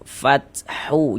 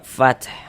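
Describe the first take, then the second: First: The word ends with an added u vowel. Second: The word ends on a silent final consonant. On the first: The speaker calls it wrong. "Jangan dibaca fathu" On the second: The speaker calls it right. "Kita baca fath gitu. Huruf H kita sukunkan, kita matikan"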